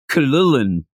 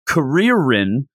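First: The middle consonants sound closer to L sounds. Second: The middle consonants are clear English R sounds. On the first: "it's more of Kalulin" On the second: "it looks like it'd be Karirin"

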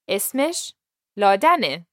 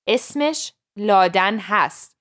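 First: The verb is reduced to a short ending sound. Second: The verb is pronounced fully as a separate word. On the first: This is everyday casual speech. The speaker calls it right. "we are learning casual speech here" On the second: This is formal written-style speech. The speaker calls it wrong. "The proper way to say her name is Laudan would be to say"

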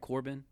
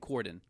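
First: The name is said with a B sound. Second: The name is said with a D sound. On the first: The speaker calls it wrong. "am I saying this right?" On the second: The speaker calls it right. "It's D"

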